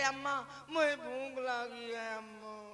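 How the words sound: It is said tearfully and lovingly.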